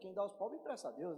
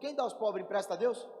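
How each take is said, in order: First: It is said as a statement, falling. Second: It is said as a question, rising.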